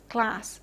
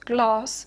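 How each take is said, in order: First: It has a short front 'a' vowel, American style. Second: It has a long back 'ah' vowel, British style. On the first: "General American, where you would have" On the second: "pronounced uh, like this in Southern British English"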